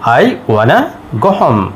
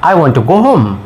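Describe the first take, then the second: First: 'Want to' is run together as 'wanna'. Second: 'Want to' is said fully as two words.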